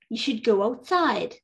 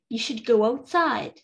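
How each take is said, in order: No difference in how they are said.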